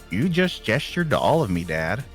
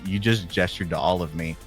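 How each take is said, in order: First: It is said in a Hiccup impression voice. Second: It is said in the speaker's normal voice.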